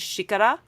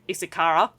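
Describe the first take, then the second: First: It is said with a Brazilian Portuguese accent. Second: It is said with a broad Australian accent.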